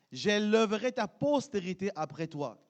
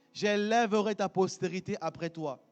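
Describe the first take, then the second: The two takes are said the same way.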